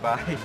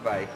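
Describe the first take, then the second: First: It is said warmly and sweetly. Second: It is said flatly and curtly. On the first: The speaker calls it right. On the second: The speaker calls it wrong.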